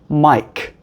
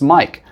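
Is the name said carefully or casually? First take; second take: carefully; casually. First: The name is said slowly and very distinctly. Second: The name is said in a normal, relaxed way.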